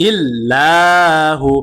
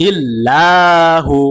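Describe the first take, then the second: The two takes are said the same way.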